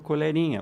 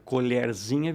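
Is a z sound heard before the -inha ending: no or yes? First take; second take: no; yes. First: No z sound comes before the ending. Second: A z sound comes before the ending.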